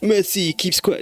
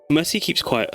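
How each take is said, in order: First: It is said in a put-on French accent. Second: It is said in the speaker's ordinary accent. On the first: The speaker calls it right. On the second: The speaker calls it wrong.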